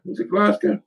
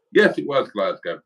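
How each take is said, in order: First: Glasgow rising high in doubt; self-doubting question with Glasgow lifted high at the end; doubtful question. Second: Yes stressed with the tune falling to a firm end on Glasgow; relieved confirmation with a firm fall on Glasgow; confident answer. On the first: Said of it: "I'm sure it was Glasgow". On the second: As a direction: settle it firmly, Yes hit and Glasgow falling. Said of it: "I was right". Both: Real, not acted.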